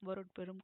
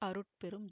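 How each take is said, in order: First: The word starts with a v sound. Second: The word starts directly with a vowel. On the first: The speaker calls it wrong. "வருட்பெரும் கிடையாது" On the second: The speaker calls it right. "அருட்பெரும் ஜோதி. இப்படிதான் வாசிக்கணும்"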